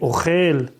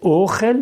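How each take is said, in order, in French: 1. L'accent tonique est sur la dernière syllabe. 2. L'accent tonique est sur la première syllabe. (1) "l'accent tonique est vers le bas" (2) "on ne doit pas dire ochel"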